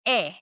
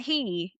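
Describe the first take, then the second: First: "he" said as "eh", the H silent; Spanish "he" with no H sound. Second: "he" with a sounded English H, as in the word he; the mistaken English H; wrong aspirated H. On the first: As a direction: drop the H: "he" is just the vowel e. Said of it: "It's actually silent". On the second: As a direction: breathe out an H before "he". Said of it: "the H is not make a sound". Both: Shown as a demonstration.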